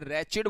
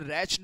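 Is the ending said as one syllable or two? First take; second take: two; one. First: The ending has a vowel, giving two syllables. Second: The ending has no vowel, giving one syllable. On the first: The speaker calls it right. "रैचिड बोला जा, जाता है" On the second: The speaker calls it wrong. "रैच्ड मत बोलिएगा"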